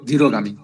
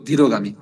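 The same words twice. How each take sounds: The two takes are said the same way.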